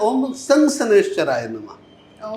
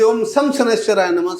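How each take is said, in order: First: The mantra is said at a measured pace. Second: The mantra is rattled off very fast. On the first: This is how the mantra properly goes. The speaker calls it right. "जबकि मंत्र होता है" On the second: Someone else chanted it this way to look impressive. The speaker calls it wrong. "वो बहुत जल्दी जल्दी"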